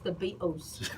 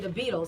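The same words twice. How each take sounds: First: Beatles is said with a British pronunciation. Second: Beatles is said with an American pronunciation. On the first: This is how the guest from London says it. The speaker calls it right. "it's the Beatles" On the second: This is how the hosts have always said it. The speaker calls it wrong. "We say the Beatles"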